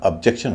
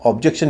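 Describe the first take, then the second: First: ऑब्जेक्शन said as əb-JEC-tion, first vowel reduced; ऑब्जेक्शन with a light first vowel, the right way; light first syllable. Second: ऑब्जेक्शन with a full, heavy first OB; ऑब्जेक्शन with a heavy first vowel, the wrong way; wrong stress on objection. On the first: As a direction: say ऑब्जेक्शन with a weak uh at the start. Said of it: "ऑब्जेक्शन नहीं होगा". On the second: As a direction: say ऑब्जेक्शन with OB fully sounded. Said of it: "गलत उच्चारण करवा रहे हैं". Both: Shown as a demonstration.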